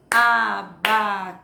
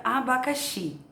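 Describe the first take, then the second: First: "Abacaxi" in four slow, loud beats: a, ba, ca, xi; "Abacaxi" chopped evenly into four drawn-out syllables. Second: Said in the usual way. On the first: Shown as a demonstration. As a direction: chant out each syllable of "Abacaxi" with a clap. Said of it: "descobrir a quantidade de sílabas assim". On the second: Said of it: "quero descobrir quantas sílabas tem".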